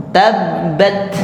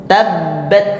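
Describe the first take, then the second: No difference in how they are said.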